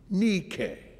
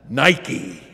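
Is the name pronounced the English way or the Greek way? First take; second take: Greek; English. First: The name is said with a Greek pronunciation. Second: The name is said with an English pronunciation. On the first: "that's the Greek pronunciation" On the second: "We pronounce it with a swoosh"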